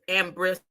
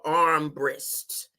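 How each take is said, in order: First: The first syllable is said without an r sound. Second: The first syllable is said as arm, with r. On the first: The speaker calls it wrong. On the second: The speaker calls it right.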